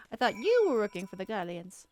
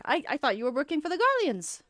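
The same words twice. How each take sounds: First: "you" lifted and leaned on; stress on YOU. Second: "Garleans" carries the weight, falling at the end; wrong emphasis. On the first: Rereading the line properly with "you" stressed. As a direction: punch the word "you". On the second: Misreading the line with the weight on "Garleans". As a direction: lean on "Garleans" instead of "you". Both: Shown as a demonstration. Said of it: "I read the emphasis wrong".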